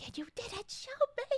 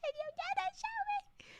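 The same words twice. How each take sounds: First: Playful indignant whine; mock complaint. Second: Much higher squeaky mock outrage; hammed-up whiny complaint. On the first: Streamer fakes hurt at friend for hiding emote, playful whine. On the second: Streamer fakes hurt at friend again, squeaky hammed-up whine. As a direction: overplay the betrayal, squeaky. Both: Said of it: "I was gonna be like".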